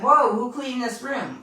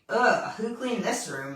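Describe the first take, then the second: First: It sounds impressed and admiring. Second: It sounds disgusted and disapproving.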